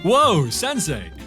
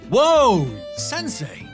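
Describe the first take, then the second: First: The whoa is short. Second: The whoa is drawn out longer.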